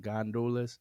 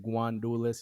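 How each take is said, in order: First: The first syllable has no w sound: gan. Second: The first syllable has a w sound: gwan. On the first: This is the standard way to say it. "the right way of saying it is Gandules" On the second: This is how Dominicans say it. "we say Guandules"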